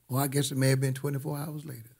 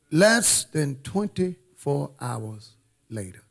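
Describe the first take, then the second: First: Fast, softer afterthought; quick aside. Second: Slow, spaced-out words; deliberate suspense-building delivery; dramatic slow repeat. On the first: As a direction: toss it off quickly under the main line. Quick self-correcting aside to dramatic line. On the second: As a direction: let each word land with weight. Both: Real, not acted.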